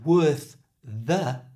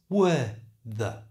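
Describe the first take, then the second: First: The final th of worth is pronounced. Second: The final th of worth is dropped.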